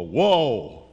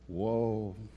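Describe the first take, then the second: First: Said sharply, with an accusing tone. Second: Said softly, with a sorrowful tone. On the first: It scolds the listener. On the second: It grieves for the listener.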